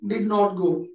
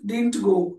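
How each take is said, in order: First: It is said in full as did not. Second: It is contracted to didn't with a t.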